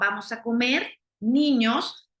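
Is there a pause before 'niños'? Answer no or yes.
yes. There is a pause before the final word. The children are invited to come and eat. "los estoy invitando a que vengan a comer"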